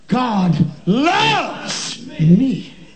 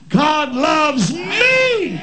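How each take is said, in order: First: The word loves carries the emphasis. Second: The word me carries the emphasis. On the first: "emphasizing a different word" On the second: "emphasizing a different word"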